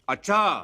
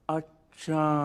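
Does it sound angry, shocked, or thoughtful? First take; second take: angry; thoughtful. First: It sounds angry and loud. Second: It sounds thoughtful and drawn out.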